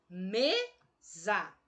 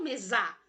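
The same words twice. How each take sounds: First: "mesa" slowly split as ME-za, ME strong; stress on the first syllable. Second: "mesa" said quickly as meZA, stressed on za; wrong final stress. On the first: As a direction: stretch and stress ME in "mesa", za weaker. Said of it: "Onde eu tonifiquei a minha". ("mesa" devagar, com ME forte) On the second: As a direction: throw the weight onto ZA in "mesa". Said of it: "Não, eu não falo mesa". ("mesa" com acento errado no ZA) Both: Shown as a demonstration.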